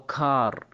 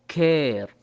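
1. الحرف هو a مفتوحة بدون نهاية. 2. الصوت يُنطق مثل الموجود في air. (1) "ما نقول كاري او كار، خطأ" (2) "كلمة كير"

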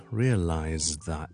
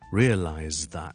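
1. 'realized' 结尾的 D 被省略了。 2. 'realized' 结尾的 D 被省略了。

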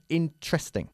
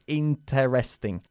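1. La primera e se omite por completo. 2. La primera e se pronuncia completamente. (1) "La primera E se pierde. Decimos interesting" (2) "No decimos interesting"

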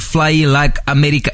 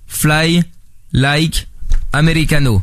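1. Les mots s'enchaînent sans pauses. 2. Chaque mot est séparé par une pause.

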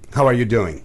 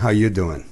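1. Nötr bir aksanla söylenmiş, her kelime net telaffuz edilmiş. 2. New York aksanıyla söylenmiş, kelimeler birbirine karışıyor.

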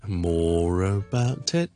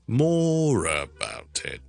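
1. 'more'上低，之后逐渐上升。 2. 'more'上高，之后低并下降。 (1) "More 比较低音，跟住慢慢向上升" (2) "more 系高音，about it 就全部都低音"

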